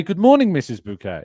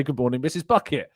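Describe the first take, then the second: First: Bouquet said "boo-KAY"; polite correct greeting. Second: Bucket said plainly "BUCK-it"; the rude way, "BUCK-it"; wrong pronunciation. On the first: Greeting Mrs Bouquet politely, "boo-KAY". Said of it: "I would say". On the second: Greeting Mrs Bouquet wrongly as "BUCK-it". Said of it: "I wouldn't say". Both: Shown as a demonstration.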